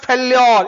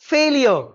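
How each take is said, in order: First: "failure" said as fel-YOR, stretched at the end; short first syllable, long heavy "yor" in "failure"; wrong pronunciation. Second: "failure" said as FAIL-yuh, long first vowel; correct pronunciation. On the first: Teacher showing students the misreading, "failure" mispronounced fel-YOR. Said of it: "it is not". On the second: Teacher correcting students, "failure" clearly modelled as FAIL-yuh. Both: Shown as a demonstration.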